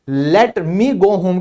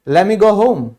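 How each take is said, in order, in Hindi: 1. 'let me' के दोनों शब्द अलग-अलग बोले जाते हैं। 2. 'Let me' मिलकर एक शब्द 'lemme' बन जाता है। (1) "की जगह" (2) "वो सिंपली कहेंगे"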